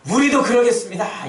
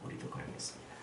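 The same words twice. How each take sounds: First: Louder, higher 우리도 그러겠습니다 in unison; in chorus. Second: 우리도 그러겠습니다 whispered without voice. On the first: Acted. Disciples in chorus, loud 우리도 그러겠습니다. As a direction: declare 우리도 그러겠습니다 together. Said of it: "이구동성으로". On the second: Shown as a demonstration. Preacher whispering the disciples' vow. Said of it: "이렇게 했다는 거예요".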